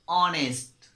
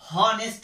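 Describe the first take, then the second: First: The word begins with a vowel sound. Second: The word begins with an h sound. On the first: The speaker calls it right. "एच क्या है, यहाँ पे silent है" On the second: The speaker calls it wrong. "हम इसको नहीं पढ़ेंगे"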